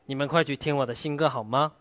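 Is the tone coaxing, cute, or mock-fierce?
mock-fierce. The line is said in a cute, mock-fierce tone. "奶凶，奶凶。"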